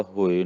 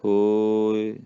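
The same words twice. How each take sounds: First: ਹੋਏ said short and straight; quick ਹੋਏ without lengthening the o; straight, unstretched. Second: ਹੋਏ with a long o gliding into short i; slow, drawn-out ਹੋਏ; lengthened o. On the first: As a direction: say ਹੋਏ briskly, no glide. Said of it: "ਸਿੱਧਾ ਹੋਏ ਨਹੀਂ ਕਹਿਣਾ". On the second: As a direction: stretch ਹੋਏ as "hooo-i". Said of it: "ਹੋੜੇ ਨੂੰ ਲੰਮਾ ਕਰਕੇ". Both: Shown as a demonstration.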